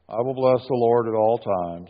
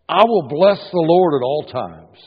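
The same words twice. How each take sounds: First: It is read flatly, without emotion. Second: It is read with strong emotion.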